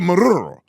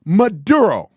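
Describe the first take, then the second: First: Loud, overdone trilled R in "Maduro"; mock Spanish accent. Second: Loud English "Maduro", hard D, no rolled R; plain English pronunciation. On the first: Host mocking the reporter's switch, exaggerated Spanish accent. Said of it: "Everything is plain English, but Maduro". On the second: Shown as a demonstration. Host correcting a reporter, emphatic English "Maduro". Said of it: "You're speaking English".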